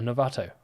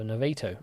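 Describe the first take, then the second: First: Novato with a broad A, "no-VAH-toh"; alternative pronunciation. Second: Novato with a long A, "no-VAY-toh"; alternative pronunciation. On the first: Quiz host offering another version, Novato said "no-VAH-toh". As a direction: say Novato with its middle syllable like "vah". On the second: Quiz host unsure of a town's name, Novato said "no-VAY-toh". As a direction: say Novato with its middle syllable like "vay". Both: Shown as a demonstration. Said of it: "not unsure of the correct, uh, pronunciation of that".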